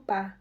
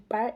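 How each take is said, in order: First: The word ends without any R sound. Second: The word ends with an audible R sound. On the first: This is how people in Boston say it. "eles dizem pá" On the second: This is the usual local way of saying it. "Em vez de par"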